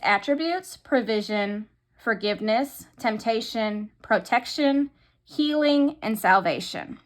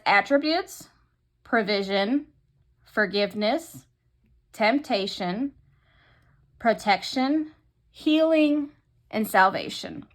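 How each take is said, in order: First: The words are spoken quickly. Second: The words are spoken more slowly. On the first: The speaker calls it wrong. "I probably said that too fast" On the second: The speaker calls it right. "a little slower"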